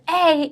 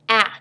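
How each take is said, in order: First: The vowel is long, like the letter name. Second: The vowel is short, like in apple. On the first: "if the open syllable says its name" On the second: "say its sound or the short vowel sound"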